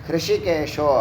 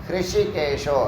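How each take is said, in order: The two takes are said the same way.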